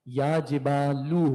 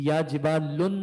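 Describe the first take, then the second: First: The last word ends on a plain 'u' vowel. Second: The last word ends with an added 'n' sound. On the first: The speaker calls it right. "या जिबालू होगा" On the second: The speaker calls it wrong. "ये या जिबालुन नहीं होगा"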